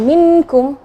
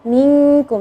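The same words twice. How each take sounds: First: The n sound is pronounced clearly and fully. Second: The n sound is hidden in a nasal hum. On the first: The speaker calls it wrong. "Jangan minkum, ya, jangan dijelaskan" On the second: The speaker calls it right. "Jadi nun itu sembunyi"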